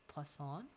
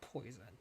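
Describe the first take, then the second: First: It is said with a French pronunciation. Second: It sounds like the English word poison. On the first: The speaker calls it right. "I believe that's how it's pronounced" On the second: The speaker calls it wrong. "It's not poison"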